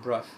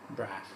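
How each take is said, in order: First: The vowel sounds like the one in 'cup'. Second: The vowel sounds like the one in 'cat'. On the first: The speaker calls it wrong. "not Bruff" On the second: The speaker calls it right.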